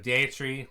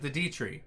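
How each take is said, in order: First: The first word sounds like the start of deity. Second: The first word sounds like the letter D. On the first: "some people might call it ... the Dea tree, like deity" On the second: "I just pronounce it the D tree"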